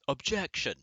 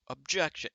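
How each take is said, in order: First: Mock courtroom yell, a bit louder and higher; yelled objection. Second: Imitating a courtroom objection, a bit louder and higher; mock lawyer yell, cutting through the cabin; Edgeworth objection. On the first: Someone in the plane bathroom hears a yell, mock courtroom shout. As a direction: shout it like a lawyer through the wall. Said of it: "someone in the other room yell". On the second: Passengers overhear Edgeworth mid-flight, mock courtroom shout. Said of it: "overhearing Edgeworth go".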